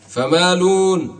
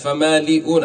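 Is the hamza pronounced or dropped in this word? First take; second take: dropped; pronounced. First: The hamza is dropped and the lam has damma. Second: The hamza is kept and the lam has kasra. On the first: This is the form used when pausing on the word. "الآن ضمينا اللام" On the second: This is the original form before pausing. "كانت فمالئون، اللام كانت مكسورة"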